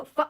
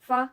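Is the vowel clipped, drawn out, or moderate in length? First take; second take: clipped; moderate. First: The vowel is cut off abruptly. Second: The vowel is short but smooth. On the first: The speaker calls it wrong. "झटका देते हैं, तो वो पढ़ना भी गलत है" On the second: The speaker calls it right. "Normal"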